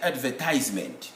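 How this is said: It is said in an American accent. "American will say advertisement"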